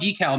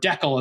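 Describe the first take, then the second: First: It is said the usual, non-Canadian way. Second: It is said the way Canadians say it.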